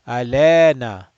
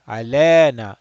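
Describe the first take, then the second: Both takes have the same delivery.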